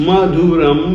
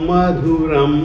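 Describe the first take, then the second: The two takes are said the same way.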